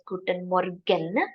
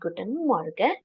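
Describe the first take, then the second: First: Every syllable is pronounced clearly and fully. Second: Some sounds are reduced in quick speech. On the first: "you will not hear it as Guten Morgen" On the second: "in a quick fashion, some of the letters are reduced"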